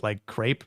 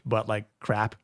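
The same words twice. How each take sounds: First: "crepe" with the vowel of grape; long A in "crepe". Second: "crap" with the short vowel of cat. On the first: Host explains the spelling, "crepe" with a long A. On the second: Host explains what is meant, "crap" with a short A. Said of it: "I'm saying crap". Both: Shown as a demonstration.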